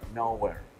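It is said as two words, now here. Present at this moment. "la segunda vez se pronuncia now here"

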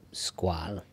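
The name is pronounced the French way. It is the original pronunciation of the name. The speaker calls it right. "non alla maniera originale francese"

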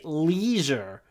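It is said in an American accent. "So Americans say leisure"

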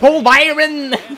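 The name is pronounced the English way. This is how an English announcer calls it. "T'as l'anglophone à mort"

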